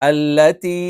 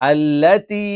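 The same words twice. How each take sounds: The two takes are said the same way.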